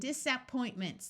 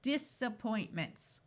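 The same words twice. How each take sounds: First: The vowel after 'dis' is a clear short A. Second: The vowel after 'dis' is a muffled uh. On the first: The speaker calls it wrong. "That sounds very close to a word" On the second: The speaker calls it right. "let's try the schwad sound and see if it works"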